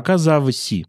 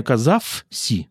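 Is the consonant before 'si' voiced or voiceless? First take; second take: voiced; voiceless. First: The consonant before 'si' is voiced, like v. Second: The consonant before 'si' is voiceless, like f. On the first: The speaker calls it right. "а «оказавси»" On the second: The speaker calls it wrong. "он не глухой, не «оказавси»"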